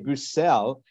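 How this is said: The name is said with a French pronunciation. "you pronounce your name the French way"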